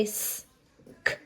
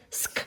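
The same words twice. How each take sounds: First: "s", a pause, then a crisp "k"; separate letter sounds. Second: "sk" joined as one sound with no gap; blended sound. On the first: Teacher showing how the letters normally sound, separated. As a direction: split "s" and "k" into two sounds. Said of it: "normally it would say". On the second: Teacher showing the letters together, blended. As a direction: run "s" straight into "k" for "sk". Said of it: "but together it says". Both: Shown as a demonstration.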